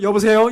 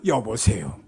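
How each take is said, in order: First: It is said in a light, bright voice. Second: It is said in a low, heavy voice.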